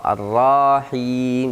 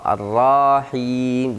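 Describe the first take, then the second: First: The vowel after the r is drawn out long. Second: The same.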